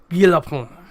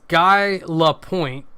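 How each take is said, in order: First: It is said smoothly with a French accent. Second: It is said with an American accent. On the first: "it's very smooth and run together like" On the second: "if you're going to be super American about it"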